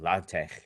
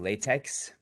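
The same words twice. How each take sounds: First: The final sound is a throaty German ch. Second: The final x is a plain ks sound. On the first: This is how the inventor meant it to be said. "X should be pronounced like Ch in German, like Bach" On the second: This is the everyday word for rubber. "notice how I'm not saying latex"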